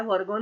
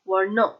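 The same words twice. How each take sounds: First: वर्गों said with g, the wrong word; वर्गों as the misprint reads; the wrong form वर्गों; misreading corrected. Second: वर्णों with retroflex ɳ, rising as the fix; वर्णों as the right word; correct pronunciation. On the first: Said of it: "वर्गों नहीं है". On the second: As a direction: say वर्णों clearly, correcting वर्गों. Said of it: "वर्गों नहीं है, वर्णों". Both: Shown as a demonstration.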